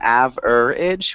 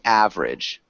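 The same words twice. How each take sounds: First: The word is said with three syllables. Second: The word is said with two syllables. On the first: The speaker calls it wrong. "instead of saying average" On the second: The speaker calls it right. "That's two syllables. ... we just say average"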